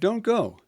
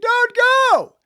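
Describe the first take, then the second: First: It is said softly and gently. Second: It is said loudly with strong urgency.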